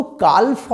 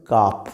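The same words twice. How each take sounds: First: কালফ with the L pronounced; L wrongly sounded. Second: কাফ with no L sound at all; silent L. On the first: Teacher warns children about the silent L, কালফ with L sounded. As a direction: say কালফ, letting the L be heard. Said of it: "কিন্তু কালফ হবে না". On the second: Teacher models calf for children, কাফ with the L silent. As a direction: say কাফ, long vowel straight into the F. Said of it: "উচ্চারণ হবে কাফ". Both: Shown as a demonstration.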